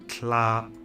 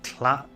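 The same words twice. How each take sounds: First: The vowel is held long. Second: The vowel is clipped short.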